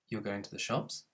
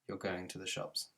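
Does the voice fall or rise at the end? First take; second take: rise; fall. First: The voice rises at the end. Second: The voice falls at the end. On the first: It is a question. "You need to make your voice go up at the end" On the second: It is a statement. "instead of"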